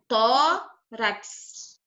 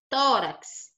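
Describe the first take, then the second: First: "tórax" very slowly, long TÓ, pause, then rax; split into syllables. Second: Said in the usual way. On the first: Shown as a demonstration. Teacher showing a pupil the last syllable, "tórax" split as tó... rax. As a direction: break "tórax" in two, stretching the stressed tó. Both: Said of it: "a última sílaba é essa aqui".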